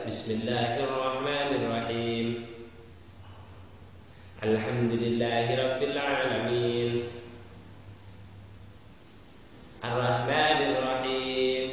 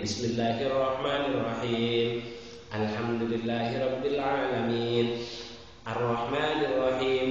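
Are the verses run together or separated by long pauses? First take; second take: long pauses; run together. First: Long pauses separate each of the verses. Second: The verses run together without long pauses. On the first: The recitation is broken up between verses. The speaker calls it wrong. "tidak boleh" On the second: The recitation is continuous as required. The speaker calls it right. "harus dibaca terus. Batasannya itu adalah satu kali nafas"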